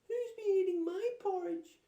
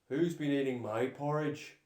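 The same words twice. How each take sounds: First: It is cried in a small Baby Bear voice. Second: It is growled in a deep Daddy Bear voice.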